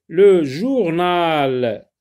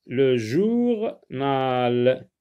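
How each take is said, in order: First: Loud, very slow drawn-out word; dictation style. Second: "journal" split, with a pause before "nal"; syllables separated. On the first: Teacher announcing a new word to pupils, loud dictation style. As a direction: call out the new word, stretching it. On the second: Teacher breaking a word down for pupils, syllables separated. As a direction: stretch "jour", pause, then a drawn-out "nal". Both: Shown as a demonstration.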